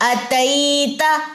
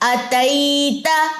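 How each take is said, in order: Both takes have the same delivery.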